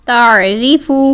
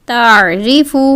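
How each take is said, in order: No difference in how they are said.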